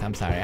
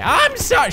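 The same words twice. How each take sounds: First: Said in the usual way. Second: Very high mock villain voice; high, hammed-up villain apology; Bane. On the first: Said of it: "I'll just stop with the Bane voice". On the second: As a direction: slip back into a bad masked-villain impression. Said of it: "stop with the Bane voice".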